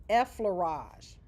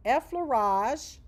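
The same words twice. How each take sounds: First: Effleurage said slowly as EF-fler-AHZH, falling; pronunciation demo. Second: Effleurage said slowly, louder, rising at the end; pronunciation demo. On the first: Teacher showing students how to say effleurage, slow falling. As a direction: spell effleurage out with the sound slowly, ending down. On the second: Teacher repeating term for students, slow rising. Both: Shown as a demonstration. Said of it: "That's how you pronounce it".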